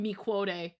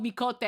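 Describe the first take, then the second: First: The q is sounded as kw. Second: The q is sounded as k. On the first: The speaker calls it wrong. "I knew I was saying it wrong" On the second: The speaker calls it right. "until I heard it was called micote"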